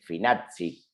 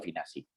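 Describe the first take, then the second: First: The double z gets its original double-z sound. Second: The double z is read as a local Spanish sound. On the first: This is how it is said where the name comes from. "la forma real de decirlo es Finazzi, porque es con doble Z" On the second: This is how the speaker usually says the name. "yo lo digo Finazzi, así como está"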